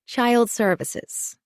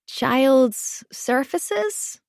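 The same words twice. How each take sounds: First: Put-on "Child Services" said slowly and clearly; correcting. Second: Put-on high, slow child's question; little boy. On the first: Mother correcting her son's "surfaces", "Child Services" pronounced clearly. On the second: Boy asking his mother what that is, childlike. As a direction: puzzle out unfamiliar words in a small child's voice. Small boy mispronounces an unknown term. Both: A narrator's reading.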